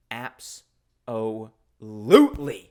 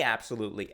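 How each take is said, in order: First: Slow, drawn-out cool duck absolutely; Floyd D Duck. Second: Said in the usual way. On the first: Retold or imitated. Vlogger voicing the duck mascot, slow drawn-out absolutely. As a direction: stretch it out like a swaggering cartoon duck. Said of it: "that's the way he would say absolutely". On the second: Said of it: "that's the way he would say".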